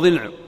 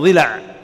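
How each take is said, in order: First: The L sound has no vowel after it. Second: The L sound is followed by a short a vowel. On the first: This is the Tamimi form of the word. "بإسكان اللام على لغة تميم" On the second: This is the Hijazi form of the word. "بكسر الضاد وفتح اللام على لغة الحجازيين"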